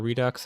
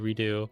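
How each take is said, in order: First: The word ends with a clear ks sound. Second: The word ends in a vowel, without ks. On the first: "a lot of people pronounce the X as the K S sound" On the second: "proper French would be Redo"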